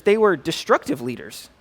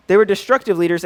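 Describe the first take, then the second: First: Said in the usual way. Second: "were" leaned on, the whole phrase said louder; emphatic repeat. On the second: Shown as a demonstration. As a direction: drive home "They were destructive leaders" with weight on "were".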